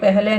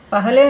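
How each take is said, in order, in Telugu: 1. మొదటి అక్షరాన్ని 'peh' అని అంటారు. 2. మొదటి అక్షరాన్ని 'pa-ha' అని అంటారు. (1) "పెహలే అని ప్రొనౌన్స్ చేస్తారు" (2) "పహలే అని రాస్తారు హిందీలో"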